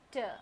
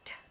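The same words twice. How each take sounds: First: It is a t followed by an uh sound. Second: It is a short crisp t sound. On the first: The speaker calls it wrong. "and not T" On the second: The speaker calls it right. "the sound of this letter is T"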